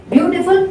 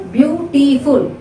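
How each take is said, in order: First: Said in the usual way. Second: "beautiful" slowly split as BEAU-ti-ful; syllable by syllable. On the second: Shown as a demonstration. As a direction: count out three syllables in "beautiful". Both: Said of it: "Three syllable word".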